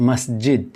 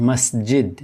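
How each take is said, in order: Both takes have the same delivery.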